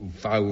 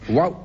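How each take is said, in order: First: The word begins with a V sound. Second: The word begins with a W sound. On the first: "or a V" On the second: "you can either pronounce with a W or a V"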